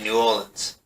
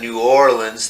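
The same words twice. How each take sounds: First: The syllables are slurred and run together. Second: Every syllable is pronounced fully and carefully. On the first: This is how locals say it. "They just say it as lazy as possible" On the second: This is how outsiders say it. "instead of New Orleans"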